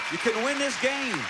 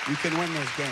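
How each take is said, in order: First: Said higher, urging the player on; higher encouraging take. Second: Said in the usual way. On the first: Real, not acted. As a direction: push the line up with hope.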